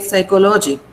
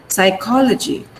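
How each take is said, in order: First: "psychology" as psy-ko-LO-jee, full O in "lo"; "psychology" the common wrong way, psy-ko-LO-jee; mispronounced psychology. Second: "Psychology" as psy-KO-luh-jee; "Psychology" with strong KO and short "luh"; stress on KO. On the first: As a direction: say "psychology" with unreduced "ko-lo", missing the stress on KO. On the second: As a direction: hit the second syllable of "Psychology", reduce the "lo". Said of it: "this is where the stress mark is". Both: Shown as a demonstration.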